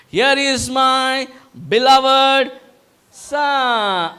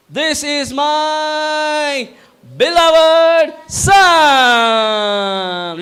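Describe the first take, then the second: First: Drawn-out proclamation, higher and louder; a lighter take on the arena introduction; announcer voice. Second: Very slow, much higher, ending in a loud shout; wrestling-arena introduction stretched into a roar; WWF ring announcer. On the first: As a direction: announce it grandly, slowing down. Repeats the Father's proclamation. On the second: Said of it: "with the same accent". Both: Acted.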